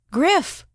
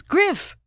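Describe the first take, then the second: First: High, ringing call of his name; proclaiming loudly. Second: High call with a falling end; calling out again. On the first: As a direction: call him through the bathroom door, much higher. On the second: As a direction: call his name again, much higher, dropping at the end. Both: A narrator's reading. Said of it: "she proclaimed through the bathroom door".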